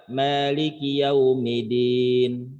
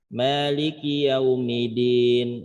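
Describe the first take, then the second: Both takes have the same delivery.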